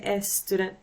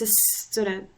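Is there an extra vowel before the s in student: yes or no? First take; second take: yes; no. First: An extra e sound comes before the s. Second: The word starts directly with the s sound. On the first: The speaker calls it wrong. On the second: The speaker calls it right.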